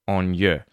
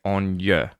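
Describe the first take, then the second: No difference in how they are said.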